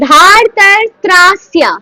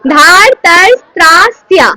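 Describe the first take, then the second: First: "ধার, তার, ত্রা, স্যা" said as one chain, each syllable crisp; joined syllables. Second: "ধার, তার, ত্রা, স্যা" said again a bit louder, each syllable falling; repeat the chain. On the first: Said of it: "এটাকে একসাথে কি হবে?". ("ধার, তার, ত্রা, স্যা" একটানা উচ্চারণ) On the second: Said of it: "বলো, বলো, বলো". ("ধার, তার, ত্রা, স্যা" জোরে পুনরাবৃত্তি) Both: Shown as a demonstration.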